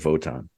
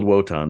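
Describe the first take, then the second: First: The name begins with a V sound. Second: The name begins with a W sound. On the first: This follows the German pronunciation. "they say Wotan because uh, it's German" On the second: This follows the written spelling. "It's spelled Wotan"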